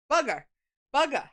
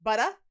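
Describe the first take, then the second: First: "Bugger" for butter, the t flapped to a hard g, r dropped; exaggerated Long Island "Bugger"; mock-thick Long Island "Bugger"; heavier Long Island accent. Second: Long Island "Butter?" with a dropped r, said with a light rise; playful Long Island "Butter?"; Long Island accent. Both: Shown as a demonstration. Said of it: "a little more Long Island".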